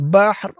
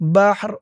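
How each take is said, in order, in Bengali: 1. শব্দটি টানা 'র' ধ্বনিতে শেষ হয়। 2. শব্দটি টানা 'র' ধ্বনিতে শেষ হয়।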